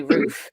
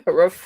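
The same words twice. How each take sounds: First: "roof" with a long oo, as in food; long-vowel roof. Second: "roof" with a short oo, like a dog's ruff; bark-like short vowel on "roof", louder. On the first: Repeating what Jim likes to hear, long-oo "roof". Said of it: "the way we say roof". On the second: Joking it sounds like a dog, short-vowel "roof". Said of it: "Like a dog". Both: Shown as a demonstration.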